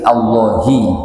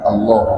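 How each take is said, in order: First: The word ends with an added 'i' vowel. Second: The word ends on the consonant 'h'. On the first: The name is joined to the following words. The speaker calls it right. "dibaca Allahi" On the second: The name is read as standing alone. The speaker calls it wrong. "bukan Allah"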